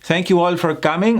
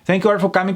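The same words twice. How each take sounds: First: The sentence is spoken slowly. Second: The sentence is spoken quickly. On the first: The speaker calls it right. "if I speak slow, people will understand me" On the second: The speaker calls it wrong. "fast speaking"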